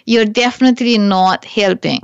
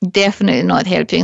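First: Said in the usual way. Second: Fast, tossed-off repeat of "Definitely not helping."; fast emphatic echo of "Definitely not helping."; quick repeat. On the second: Shown as a demonstration.

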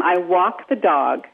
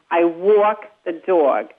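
First: New York vowels, slow and drawn out; New York accent. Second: Slow Cockney English accent, rounded vowels. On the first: A coach demonstrating the New York accent slowly. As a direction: sound it out as a New Yorker would. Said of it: "So you go from". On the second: A coach contrasts New York with Cockney English. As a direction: drag it out Cockney style. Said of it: "So you go from ... to". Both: Shown as a demonstration.

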